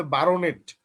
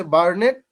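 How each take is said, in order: First: বারোনেট with a full "ro" in the middle; pronounced in separate parts. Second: বার্নেট in two syllables, bar-net; English pronunciation. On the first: Teacher shows students the split-up reading, বারোনেট with its "o" sounded. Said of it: "আলাদা করে উচ্চারণ করেন". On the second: Teacher gives students the English pronunciation, বার্নেট run together as bar-net. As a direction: say বার্নেট with no "o" after the r. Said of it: "English উচ্চারণটা হচ্ছে". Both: Shown as a demonstration.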